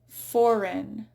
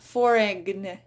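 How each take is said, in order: First: No G sound is pronounced before the N. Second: A G sound is pronounced before the N. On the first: The speaker calls it right. "It's a silent G" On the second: The speaker calls it wrong. "It's not foreign"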